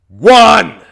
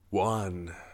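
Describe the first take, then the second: First: It is said loudly. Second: It is said quietly.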